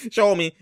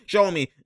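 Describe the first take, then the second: First: Laughing demand to show it. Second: Said in the usual way. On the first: Real, not acted. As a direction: repeat it with a laugh, a bit higher.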